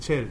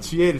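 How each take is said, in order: First: The start is one gliding syllable, che. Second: The start is split into two syllables, chi-e. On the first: The speaker calls it right. "チェルです" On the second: The speaker calls it wrong. "チエルじゃなくて"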